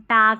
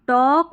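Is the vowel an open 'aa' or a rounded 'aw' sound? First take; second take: aa; aw. First: The vowel is an open 'aa' sound. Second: The vowel is a rounded 'aw' sound. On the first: The speaker calls it wrong. "हम टाक नहीं पढ़ते" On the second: The speaker calls it right. "तो भी हम औ पढ़ेंगे"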